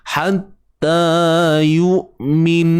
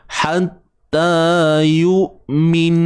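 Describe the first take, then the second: The two takes are said the same way.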